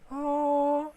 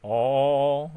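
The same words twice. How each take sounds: First: The sound is produced at a high pitch. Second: The sound is produced at a low pitch. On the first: "이런 거는 음이 높은 거고요" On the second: "이런 거는 음이 낮은 거지요"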